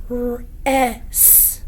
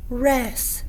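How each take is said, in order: First: "R-, S" said as three separate sounds, r, eh, s; sounded out. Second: Said in the usual way. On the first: Shown as a demonstration. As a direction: segment each sound slowly to expose the short e. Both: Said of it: "What is our vowel sound?".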